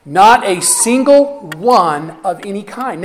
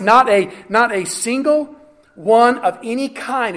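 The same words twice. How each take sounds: First: Every word of "Not a single one of any kind" slowed and leaned on; slow, weighted phrase. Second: Said in the usual way. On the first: Shown as a demonstration. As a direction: lay it down slowly, word by word. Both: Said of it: "write that one down".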